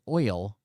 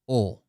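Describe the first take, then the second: First: The word is said fully with the 'oy' sound. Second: The word is clipped, sounding close to 'oh'. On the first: It is said with conscious effort. The speaker calls it right. "I have to stop ... and think and say oil" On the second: This is how it comes out naturally. The speaker calls it wrong. "that's what I say"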